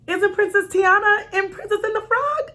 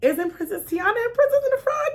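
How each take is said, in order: First: Higher, nervous, polite question. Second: Raised, careful, trying not to sound rude; polite nervous question. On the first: Challenging a stranger mom politely, nervous and high-pitched. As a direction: keep it high and careful, trying not to be rude. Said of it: "my tone was a little high 'cause I was nervous". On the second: Correcting another mom gently, high and nervous. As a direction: lift the pitch and keep it sweet. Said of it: "I tried not to be rude". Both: Retold or imitated.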